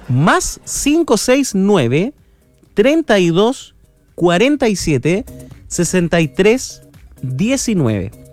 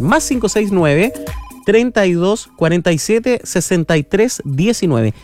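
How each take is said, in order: First: The number is said slowly. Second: The number is said quickly.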